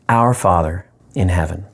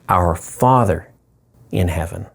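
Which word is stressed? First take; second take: our; Father. First: The stress falls on the word our. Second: The stress falls on the word Father.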